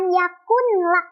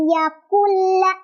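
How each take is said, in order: First: The n is pronounced clearly before the l. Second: The n merges straight into the l sound. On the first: The speaker calls it wrong. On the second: The speaker calls it right. "langsung ke lamnya, tanpa ditahan atau tanpa didengungkan"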